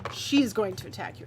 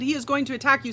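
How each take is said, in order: First: Quick self-correction with the weight on She; stress on She. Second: Said in the usual way. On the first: Real, not acted. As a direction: correct yourself, leaning on the word She. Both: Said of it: "I keep saying that she's changing it".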